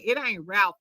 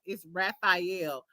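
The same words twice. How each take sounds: First: Said in the usual way. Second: Raphael said slowly, spelling out each syllable, ra-fai-el; slow, deliberate Raphael with three clear syllables; name said carefully. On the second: Shown as a demonstration.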